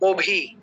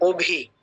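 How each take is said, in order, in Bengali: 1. প্রথম স্বরধ্বনিটি গোলাকার, o-এর মতো। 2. প্রথম স্বরধ্বনিটি গোলাকার, o-এর মতো।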